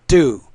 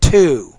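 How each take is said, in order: First: The word starts with a soft D sound. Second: The word starts with a clear T sound. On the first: The speaker calls it wrong. "It's not do" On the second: The speaker calls it right. "you don't pronounce it as a flap or a D sound"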